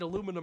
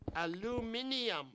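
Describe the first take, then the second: First: The word is said with four syllables. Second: The word is said with five syllables.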